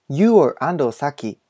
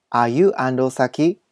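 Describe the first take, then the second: First: Said in the usual way. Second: "Are you Ando Saki?" slowly, lifting the pitch at the end; rising question. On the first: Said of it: "疑問文は最後を上げる". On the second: Shown as a demonstration. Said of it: "疑問文は最後を上げるように発音したり". (「Are you Ando Saki?」の最後を上げて)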